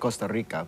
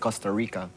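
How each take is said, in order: First: The R is strongly trilled. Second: The R is soft and English-like. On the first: "they don't say Costa Rica" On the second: "they pronounce the R like how we pronounce the R"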